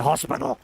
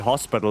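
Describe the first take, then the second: First: The word is said in a harsh, aggressive way. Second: The word is said in a calm, neutral way.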